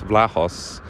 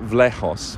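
First: "Vlahos" said as VLAH-hoss; "Vlahos" with the first syllable like "vlah". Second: "Vlahos" said as VLEH-hoss; "Vlahos" with the first syllable like "vleh". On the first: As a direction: try "Vlahos" with an "ah" first vowel. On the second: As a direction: try "Vlahos" with an "eh" first vowel. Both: Shown as a demonstration. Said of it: "I have no idea who".

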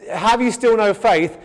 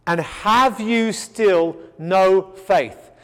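First: Said in the usual way. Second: "And have you still no faith?" drawn out very slowly, weight on "have", falling; slow solemn question. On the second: Shown as a demonstration. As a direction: linger on every word of "have you still no faith" like a grave rebuke.

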